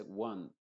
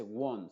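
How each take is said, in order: First: ONE as WUHN, short 'uh'; ONE with the vowel unrounded; correct vowel. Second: ONE with a rounded O, as WON with 'oh'; ONE with lips rounded on the vowel; mispronounced. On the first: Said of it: "se dice one". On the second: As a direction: say ONE wrongly as WOHN. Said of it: "No se dice one". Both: Shown as a demonstration.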